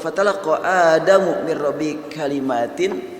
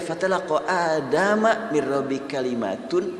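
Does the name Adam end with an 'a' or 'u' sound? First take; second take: u sound; a sound. First: Adam ends in u; kalimat ends in in. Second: Adam ends in a; kalimat ends in un. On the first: Adam receives the words. "Itulah Adamu, Adam menerima, menerima kalimat" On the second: The words receive Adam. "kalimat menerima Adam"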